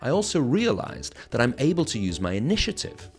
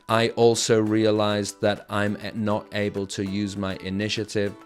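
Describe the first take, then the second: First: It is grouped, with stressed words and pauses. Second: It is flat, every word given equal weight. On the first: The speaker calls it right. "It's like little group of words, big word, little words, pause" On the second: The speaker calls it wrong. "I'm not just saying"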